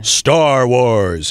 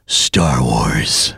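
First: Big, drawn-out seventies movie trailer voice; vintage voice-of-God trailer read; old-fashioned trailer announcer. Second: Very deep, low trailer rumble; ultra-low trailer announcer; modern movie trailer voice. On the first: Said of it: "the real old-fashioned kind of movie trailers". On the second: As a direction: drop way down for a present-day trailer title. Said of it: "watch that and compare it to". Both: Shown as a demonstration.

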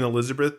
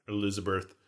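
First: Said in the usual way. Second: Elizabeth with an r-coloured last vowel, "-berth"; odd pronunciation. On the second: Real, not acted. Host repeats the name Elizabeth oddly, ending it "-berth". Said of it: "new way to pronounce Elizabeth".

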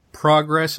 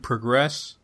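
First: "progress" as a noun, with the stress on the first syllable, PRO-gress. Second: "progress" as a verb, with the stress on the second syllable, pro-GRESS. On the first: Podcaster contrasting English noun and verb pairs, giving the noun stress. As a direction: lean on the front of "progress". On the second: Podcaster contrasting English noun and verb pairs, giving the verb stress. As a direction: push the weight onto the end of "progress". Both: Shown as a demonstration. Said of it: "that have different stress".

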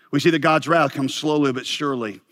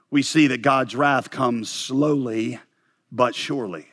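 First: Said in the usual way. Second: Drawn out slowly, pausing before "but surely"; slow, deliberate point. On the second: Real, not acted. Pastor announces point six on God's wrath, slow and deliberate. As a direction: stretch "slowly", pause, then land "but surely".

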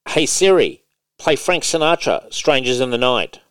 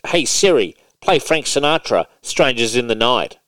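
First: Raised, carefully clear command to Siri; commanding the phone again. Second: Raised, clear voice command to Siri; commanding the phone. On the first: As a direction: speak it out firmly for the phone to catch. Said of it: "let's try again". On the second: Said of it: "So I'm like". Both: Shown as a demonstration.

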